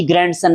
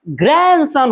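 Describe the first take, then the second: First: ग्रैंडसन with an audible D before the S; wrong, D sounded. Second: ग्रैंडसन slow, as gran-son without D; silent D. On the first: Tutor rejects the common reading, D sounded. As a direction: pronounce the D in ग्रैंडसन. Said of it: "जी, ग्रैंडसन नहीं होता". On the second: Tutor corrects pupils, D dropped and word drawn out. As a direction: stretch ग्रैंडसन, N straight into S. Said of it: "ग्रैंडसन होता है". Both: Shown as a demonstration.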